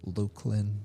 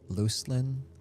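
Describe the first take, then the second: First: The first syllable sounds like Luke. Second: The first syllable sounds like loose. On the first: "or you might say Luke" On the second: "You might think loose"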